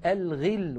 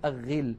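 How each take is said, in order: First: الغل said al-ghill, with clear l; pronounced lam. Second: الغل said agh-ghill, l dropped; assimilated lam. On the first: Teacher showing correct form, الغل as al-ghill. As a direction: sound the article's l in الغل. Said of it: "ولا نقول الغل". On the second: Teacher showing the error, الغل as agh-ghill. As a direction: double the gh in الغل, no l. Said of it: "ولا نقول". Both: Shown as a demonstration.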